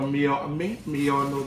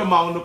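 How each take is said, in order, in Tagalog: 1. Nagsisimula ang pangalan sa tunog na 'miyo'. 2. Nagsisimula ang pangalan sa tunog na 'mau'. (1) "Pero Miyono daw" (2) "Pero mauno pagbasa nito"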